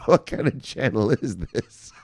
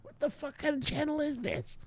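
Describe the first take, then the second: First: Slow, put-on voice of a puzzled newcomer; mock viewer voice. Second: High, soft squeaky voice of a baffled viewer; squeaky mock viewer. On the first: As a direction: drag it out like a confused new viewer. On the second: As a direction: squeak it out like a whiny newcomer. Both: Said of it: "you're like".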